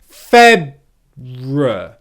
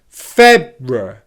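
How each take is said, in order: First: The word is said very slowly. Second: The word is said at normal speed.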